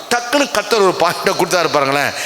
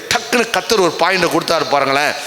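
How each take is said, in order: The two takes are said the same way.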